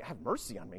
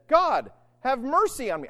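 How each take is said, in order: First: Low, soft, quick aside; much softer, dropped repeat; offhand echo. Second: Raised, loud plea to God; fervent cry for mercy; anguished tax collector. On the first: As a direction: toss it off under the voice. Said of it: "Good grief, I've heard that". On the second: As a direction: cry out as a penitent. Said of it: "beat on his breast and said". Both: Acted.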